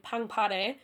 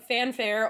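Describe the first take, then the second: First: The word is said with a Korean pronunciation. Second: The word is said with an English pronunciation.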